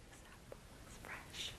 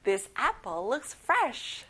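First: Whispered drill line; quiet repeat, all whisper. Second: Said in the usual way. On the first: Shown as a demonstration. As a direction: breathe This apple looks fresh softly. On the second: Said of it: "let's say it all together".

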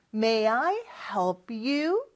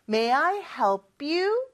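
First: Said in the usual way. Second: "help you" run together as helpyou; linked help you. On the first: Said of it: "빨리 발음하면 help하고 you가 붙어서". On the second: Shown as a demonstration. Teacher showing students fast linked speech, helpyou blended. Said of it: "요렇게 발음도 돼요".

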